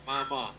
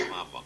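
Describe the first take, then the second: First: High, soft imitation of a child calling; clear child's voice. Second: Soft, faint imitation of a far-away child; child's distant voice. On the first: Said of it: "Just very clear". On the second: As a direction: lightly imitate a small voice calling from a distance. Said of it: "child's voice in the distance say".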